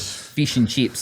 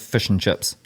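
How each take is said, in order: First: It is said in an Australian accent. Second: It is said in a New Zealand accent.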